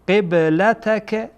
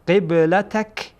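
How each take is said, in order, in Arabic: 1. تُنطق الحركة الأخيرة، فتنتهي الكلمة بحركة. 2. تُحذف الحركة الأخيرة، فتنتهي الكلمة بساكن. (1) "اما اگر وقف نکنین میگین" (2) "در صورتی که وقف کنید"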